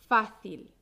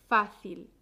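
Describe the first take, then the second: Both takes have the same delivery.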